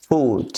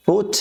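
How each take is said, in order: First: "ফুট" with a drawn-out oo; long vowel. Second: "ফুট" with a brief u; short vowel. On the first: Teacher contrasting vowels for learners, long "ফুট". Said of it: "দ্বিতীয়টা টান হচ্ছে". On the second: Teacher contrasting vowels for learners, short "ফুট". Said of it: "প্রথমটা টান হচ্ছে না". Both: Shown as a demonstration.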